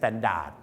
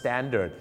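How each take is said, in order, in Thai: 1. พยางค์สุดท้ายมีสระเต็มเสียง 2. พยางค์สุดท้ายมีสระลดเสียง (1) "ไม่ใช่" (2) "ต้องเป็นสระเอครับตัวอย่างครับ"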